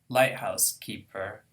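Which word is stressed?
light. The main stress falls on light. Someone who lives in and watches a lighthouse. "someone who lives in a lighthouse and who watches over it"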